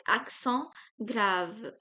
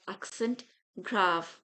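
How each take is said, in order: First: Accent grave as "ak-son grahv"; French accent grave. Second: Accent grave as "AK-sent grahv"; English accent grave. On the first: Teacher saying but in French, French accent grave. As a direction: say accent grave with nasal French -ent, silent T. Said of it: "but in French we say". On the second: Teacher contrasting English with French, English accent grave. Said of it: "accent grave in English". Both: Shown as a demonstration.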